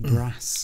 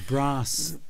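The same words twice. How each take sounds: First: Brass is said in a common, unrefined way. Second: Brass is said in a posh, refined way. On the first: The speaker had a less refined upbringing. The speaker calls it wrong. "and not brass" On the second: The speaker is from a well-to-do family. The speaker calls it right. "Just as brass"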